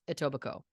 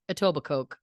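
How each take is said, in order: First: It is said in the local, non-spelled way. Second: It is sounded out just as it is spelled. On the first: The speaker calls it right. "but it is pronounced Etobicoke" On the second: The speaker calls it wrong. "it reads Etobicoke"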